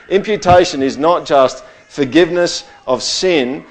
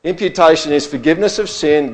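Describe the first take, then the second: First: "not" leaned on in "Imputation is not just forgiveness of sin"; stress on not. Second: "Imputation is forgiveness of sin" stated firmly, weight on "of sin"; stress on forgiveness. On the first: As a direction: hit "not just" to set up the contrast. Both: Shown as a demonstration.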